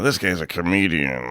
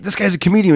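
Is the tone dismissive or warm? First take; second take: dismissive; warm. First: It is said flatly and dismissively. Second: It is said warmly, with a smile. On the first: The person is mocked as a joke. "as opposed to" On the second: The person is praised as genuinely funny. "he said it with a smile"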